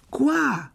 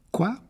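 First: Quoi? haut et plus fort, pressant; Quoi? lancé avec impatience; impatient. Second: Said in the usual way. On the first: Acted. Ron s'impatiente. (Quoi? impatient et aigu)

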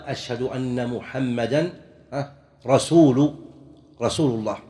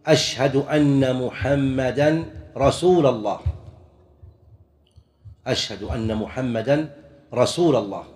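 First: "رسول" ending in u, "rasuulu-llaah"; pause, then stress the damma ending of "رسول"; correct case ending. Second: "رسول" ending in fatha, "rasuula"; wrong case ending. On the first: Teacher giving the correct wording, "رسول" ending in u. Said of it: "والصواب أن يقال". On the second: Teacher showing muezzins' mistake, "رسول" ending in a. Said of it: "خامسًا من الأخطاء". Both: Shown as a demonstration.

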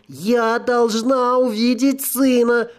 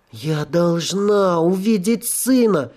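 First: Higher, slow, near tears; sobbing ghost voice. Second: Slow, pleading ghost demand; insistent ghost. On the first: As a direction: cry out desperately, about to sob. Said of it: "Призрак вдруг всхлипнул". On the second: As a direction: insist like a desperate spirit. Ghost insists, repeated thrice. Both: Acted.

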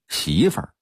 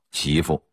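First: 媳妇儿 with Beijing erhua, second syllable shrunk to an r; Beijing local pronunciation. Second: 媳妇 in careful Putonghua, no r-colouring, clear fu; standard Mandarin pronunciation. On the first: Lecturer shows the local sound, 媳妇儿 ending in a reduced r-coloured syllable. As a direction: say 媳妇儿 like a Beijinger, curling the end. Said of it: "北京土话的发音儿是". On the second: Lecturer gives the standard reading, 媳妇 without any erhua. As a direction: say 媳妇 the textbook Putonghua way. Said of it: "普通话应该念成媳妇". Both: Shown as a demonstration.

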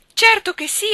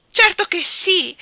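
First: Even higher, louder quick "certo che sì"; unrestrained joy. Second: Much higher, louder and slow "certo che sì"; unrestrained joy. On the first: Nora accepting Jim's proposal again, ecstatic. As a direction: tumble it out in ecstatic repeat. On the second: Nora accepting Jim's proposal, joyful and unrestrained. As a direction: savour the yes, beside herself. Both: Acted. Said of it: "esclamò Nora senza il minimo ritegno".

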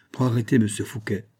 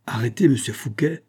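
First: Said in the usual way. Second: Mildly astonished rising question; outburst. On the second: A narrator's reading. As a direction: echo the order in disbelief. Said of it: "dit-il avec éclat". (éclat de surprise)

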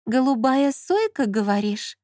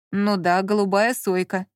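First: Slow, stretched-out musing question; drawled, strange voice. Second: Said in the usual way. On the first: A narrator's reading. Lola repeats Lyonya's words, drawling strangely. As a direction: draw it out oddly, dropping at the end. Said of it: "протянула она каким-то странным голосом".

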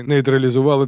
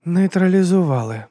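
First: Said in the usual way. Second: НЕЙТРАЛІЗУВАЛИ drawn out, high, then falling; «Нейтралізували» stretched out high in disbelief; questioning echo. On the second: A narrator's reading. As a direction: echo «Нейтралізували» slowly in a raised, querying voice. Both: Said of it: "повторила Абена".

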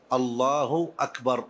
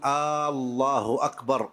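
First: Said in the usual way. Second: آه الله أكبر with the opening hamza drawn out long; آه الله أكبر as the wrong long-vowel form; stretched hamza. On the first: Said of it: "بهذا اللفظ". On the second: Shown as a demonstration. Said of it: "ألا يمد الهمزة".

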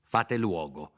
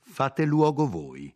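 First: A haughty nobleman ordering him aside; cold, lordly order to make way; proud order without raising the voice; imperious command. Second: Higher, slow defiant throw-back of the order; slow, raised, defiant reply to the nobleman; defiant retort. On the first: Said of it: "col cipiglio imperioso … in un tono corrispondente". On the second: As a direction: hurl the insult back at him, slowly. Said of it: "rispose Lodovico". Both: Acted.

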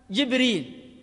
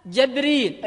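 First: جبريل with "ji" at the start and no glottal stop; kasra, no hamza. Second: جبريل with "ja" at the start and no glottal stop; fatha on jim. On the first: Teacher listing readings of Gabriel, جبريل with kasra on jim. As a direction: say جبريل as "jib-REEL". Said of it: "بكسر الجيم وحذف الهمزة". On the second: Teacher giving the second reading, جبريل with fatha on jim. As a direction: say جبريل as "jab-REEL". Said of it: "الأولى بالكسر والثانية بالفتح". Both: Shown as a demonstration.

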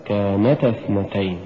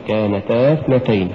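First: كانتا with only a light push on ن; unforced "كانتا اثنتين", gentle pulse on ن; correct recitation. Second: كانتا forced, with a heavy push before اثنتين; exaggerated push in كانتا; overdone wrong reading. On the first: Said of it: "الصواب". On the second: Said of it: "ونلاحظ عدم التعسف عند قراءتها". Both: Shown as a demonstration.

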